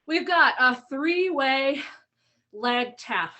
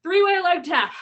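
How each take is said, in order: First: Winded, breath catching between words; out of breath from the workout. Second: "Three-way leg tap" said again, louder and clearer; louder restart. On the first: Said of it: "I'm feeling a little out of breath already". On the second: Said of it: "Sorry, I'm feeling a little out of breath". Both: Real, not acted.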